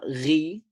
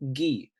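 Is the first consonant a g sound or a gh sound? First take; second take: gh; g. First: It starts with a rough gh sound. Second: It starts with a plain g sound. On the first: The speaker calls it wrong. "Not ri" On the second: The speaker calls it right. "but gi, because the letter after the ghamma is part of the E family"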